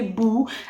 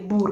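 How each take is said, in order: First: The word ends without an R sound. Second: The word ends with an audible R sound. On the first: This is how one dialect says it. "In Acholi, it would be boo" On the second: This is how another dialect says it. "they tend to pronounce the R"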